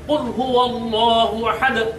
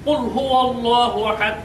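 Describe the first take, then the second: First: The final d ends with an echoing bounce. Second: The final d ends flat with no bounce. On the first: The speaker calls it right. "আর যদি কল্পনা করি তখন উচ্চারণ হবে" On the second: The speaker calls it wrong. "যদি আমরা কল্পনা না করি তাহলে উচ্চারণটা কেমন হবে?"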